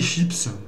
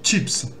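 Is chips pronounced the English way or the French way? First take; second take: French; English. First: It is pronounced like the French loanword. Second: It is pronounced like the English word. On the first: The speaker calls it wrong. "on dit pas les chips" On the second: The speaker calls it right. "c'est chi, chips"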